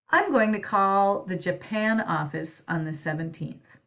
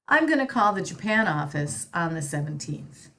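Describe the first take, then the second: First: Going to is said fully and slowly. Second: Going to is said fast as gonna.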